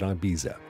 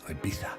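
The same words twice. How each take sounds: First: It is said with an American pronunciation. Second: It is said with the island's local pronunciation. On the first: "a lot of Americans pronounce it Ibiza" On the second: "Ibiza is how they pronounce it on the isle itself"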